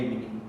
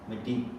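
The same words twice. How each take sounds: First: The word is said without the D sound. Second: The word is said with a D sound. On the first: This is not how the Spirit Lake people say it. "they don't say Medi" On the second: This is how the Dakota people say it. "they say Medi, with a D dialect"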